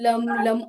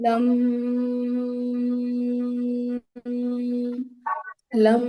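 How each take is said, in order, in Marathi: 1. अक्षरं पटापट आणि तुटक म्हटली जातात. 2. प्रत्येक अक्षर लांब आणि ओढून म्हटलं जातं. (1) "पटापट आपण जसं चॅन्ट करतो... तसं नाही करायचं" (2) "असं दीर्घ उच्चारण करायचंय"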